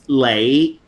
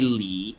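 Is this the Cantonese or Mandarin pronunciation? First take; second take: Cantonese; Mandarin. First: It is said the Cantonese way, like 'lay'. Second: It is said the Mandarin way, like 'lee'. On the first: "but in Cantonese it's Lei" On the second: "in Mandarin you would say Lee"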